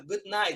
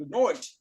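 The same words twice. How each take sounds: First: "good night" with a clear American "ai" in night; American pronunciation. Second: "good night" said as "good noight", the vowel turned to oi; Australian accent. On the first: English teacher contrasting accents, American "good night" first. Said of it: "Então, você fala". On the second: English teacher mimicking Australians, "good night" as "good noight". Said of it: "eles trocam todas as vogais". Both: Shown as a demonstration.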